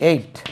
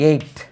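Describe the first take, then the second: The two takes are said the same way.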